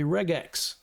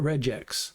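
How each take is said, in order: First: The g is hard, like in 'go'. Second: The g is soft, like a j sound. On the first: "it's a hard G sound, so the proper pronunciation is probably regex" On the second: "Sometimes you hear people call it regex"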